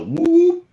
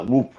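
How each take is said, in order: First: Long, high-pitched imitated whoop. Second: Said in the usual way. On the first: Witness imitating a call heard at night, long high whoop. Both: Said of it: "it was long".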